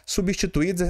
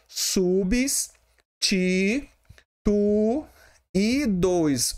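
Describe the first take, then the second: First: Said in the usual way. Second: "Subs, ti, tu e dois" as separate drawn-out, higher syllables; split into syllables. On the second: Shown as a demonstration. Teacher dividing substituídos for the class, syllable by syllable. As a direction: pause after each piece of "Subs, ti, tu e dois". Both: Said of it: "Substituídos é separado assim".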